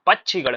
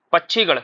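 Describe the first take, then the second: First: पक्षीगढ़ with a short "i" in the middle; correct short vowel. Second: पक्षीगढ़ with a long "ee" in the middle; wrong long vowel. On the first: Teacher shows students the correct word, short-vowelled. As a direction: keep the "i" brief in पक्षीगढ़. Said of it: "बड़ी ई की पाई नहीं". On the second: Teacher quotes the mistake to students, mispronounced. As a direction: stretch the "ee" in पक्षीगढ़. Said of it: "पक्षीगढ़ नहीं होता है". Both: Shown as a demonstration.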